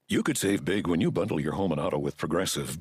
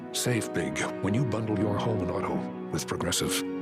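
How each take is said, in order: First: It is said in a plain, casual tone. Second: It is said in a serious, dramatic tone.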